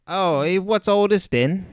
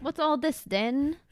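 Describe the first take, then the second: First: Hammy fake Cockney accent; mock London bobby Cockney accent; bad Cockney accent. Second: Slow, hammy fake Cockney accent; drawn-out mock Cockney accent; bad Cockney accent. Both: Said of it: "our really bad Cockney accents".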